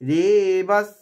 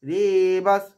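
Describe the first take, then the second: No difference in how they are said.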